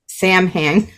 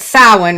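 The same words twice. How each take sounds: First: It is said just as the letters look. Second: It is said in its traditional, non-spelled form. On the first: "what looks like Samhain" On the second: "I've learned how to say it correctly now"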